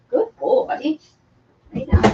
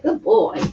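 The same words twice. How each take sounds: First: Praising the dog in a high coo; high pet talk. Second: Said in the usual way. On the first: Real, not acted.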